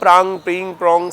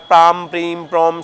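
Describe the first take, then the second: First: Each syllable ends with an ng sound. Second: Each syllable ends with an m sound. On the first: "वो अनुस्वार है, तो अंगा अंग इस प्रकार से इसका उच्चारण रहता है" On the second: "मकार ... इस प्रकार बोल सकते हैं"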